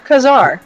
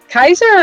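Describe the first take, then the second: First: The name sounds like 'Kazar'. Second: The name sounds like 'Kaiser'. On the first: The speaker calls it right. "This says Kazar" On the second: The speaker calls it wrong. "Is it Kaiser or Kazar?"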